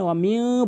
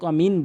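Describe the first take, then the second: First: The n is held with a nasal hum. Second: The n is a plain, short n sound. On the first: The speaker calls it right. "এখানে ওয়ামিং বলতে হবে" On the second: The speaker calls it wrong. "অধিকাংশ লোক অমিন বলে"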